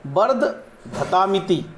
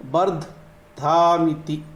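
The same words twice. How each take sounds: First: वर्धधामिति said very slowly as bar-d-dha-ta-miti, with दा before तामिति; corrected pronunciation. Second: वर्धधामिति said slowly as bar-d-daa-miti, without the त sound; first pronunciation. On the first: Teacher showing viewers the right way to say the mantra's last word, slow. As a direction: spell out वर्धधामिति syllable by syllable, adding the त. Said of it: "ये जो दाहिने पहले आ जाएगा".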